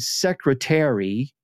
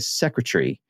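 First: The final syllables are said separately and distinctly. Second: The final syllables are blended together into one. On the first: "with a distinct syllables at the end" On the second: "They just sort of blended as tree instead of terry"

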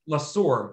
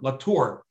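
First: The middle consonant is an s sound. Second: The middle consonant is a t sound.

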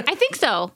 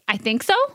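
First: It is said like an exclamation, firmly. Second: It is said like a question, rising.

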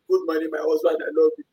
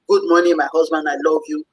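First: It is said grudgingly and reluctantly. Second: It is said warmly and willingly.

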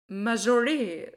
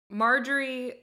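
First: The name is said with a French-style flavor. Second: The name is said in a plain English way. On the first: "French je ne sais quoi type of way of saying it" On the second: "Marjory is one way to say it"

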